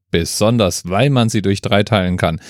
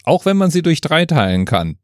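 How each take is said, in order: First: "weil" picked out as the key word; stress on weil. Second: "wenn" lifted high, then falling away; higher pitch with the weight on "wenn"; stress on wenn. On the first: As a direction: correct yourself by leaning on "weil". Correction of the preceding concession. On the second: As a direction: concede it, leaning on "wenn". Concession set against its correction. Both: Real, not acted.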